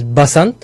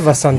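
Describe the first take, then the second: First: The word begins with a B sound. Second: The word begins with a V sound. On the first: "there's a variant where the V becomes Ba" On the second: "You still say Vasant"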